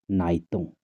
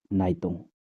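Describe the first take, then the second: No difference in how they are said.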